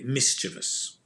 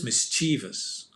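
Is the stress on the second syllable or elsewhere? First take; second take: elsewhere; second. First: The stress is not on the second syllable. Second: The stress is on the second syllable. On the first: "Some people say mischievous" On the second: "put the stress on the chievous"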